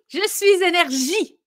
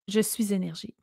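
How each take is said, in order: First: It is said with lively, high energy. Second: It is said flatly, with little energy.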